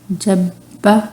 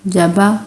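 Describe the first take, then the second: First: The b sound is held and doubled. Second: The b sound is short and single. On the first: The speaker calls it right. "पहले अब बा, ऐसे फिर मुंह खोलना है आपने फ़ौरन" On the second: The speaker calls it wrong. "अब हम इसको ऐसे नहीं पढ़ रहे"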